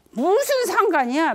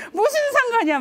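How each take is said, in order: First: Higher, louder snapped retort, stress on 무슨; angry retort. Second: Much higher, louder yell, 무슨 hit hard and falling; furious shout. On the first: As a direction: fire back 무슨 상관이야 in anger. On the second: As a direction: explode with 무슨 상관이야. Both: Retold or imitated. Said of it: "화를 내신 거예요".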